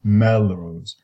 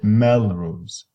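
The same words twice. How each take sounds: First: The last vowel is short and unstressed. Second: The last vowel is short and unstressed.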